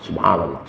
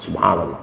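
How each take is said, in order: First: It is spoken softly with the lips moving. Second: The same.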